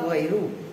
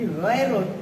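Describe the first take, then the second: First: The word ends on a vowel without final n. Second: The word ends with a final n sound. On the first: The speaker calls it wrong. "Kan kemarin-kemarin mindset kita ghairu" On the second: The speaker calls it right. "Ditegaskan oleh Syekh Habib Al-Ahdal ghairun"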